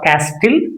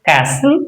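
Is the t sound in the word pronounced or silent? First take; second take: pronounced; silent. First: The t sound is pronounced. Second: The t sound is silent. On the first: The speaker calls it wrong. "instead of castle" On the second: The speaker calls it right. "we should say castle"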